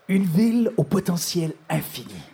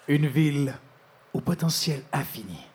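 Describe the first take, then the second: First: It is read at a faster pace. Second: It is read at a slower pace.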